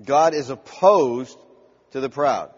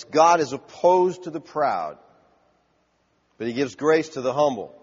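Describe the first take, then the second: First: Slower still, stressing God and proud; emphatic repeat of the verse. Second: Slow, weighty reading stressing God and grace; preacher savouring the verse; slow emphatic scripture. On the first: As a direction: drive it home word by word. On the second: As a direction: let each word land. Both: Shown as a demonstration. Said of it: "I love this".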